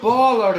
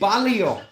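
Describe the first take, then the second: First: It is said with two syllables, ball-er. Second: It is said with three syllables, bal-lee-er. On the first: The speaker calls it wrong. "It's not baller" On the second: The speaker calls it right. "it's Ballier"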